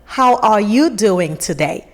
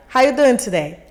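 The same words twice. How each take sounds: First: "How are you doing today?" with every word spelled out, "are" and "you" clear; slow clear greeting. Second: "How you doing today?" run together fast, "you" nearly swallowed; quick slurred greeting. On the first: Stranger finally speaking plainly to a newcomer, slow and clear. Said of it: "until the person goes like". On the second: Stranger's repeated greeting to a newcomer, still quick and slurred. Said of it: "I would still be lost". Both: Retold or imitated.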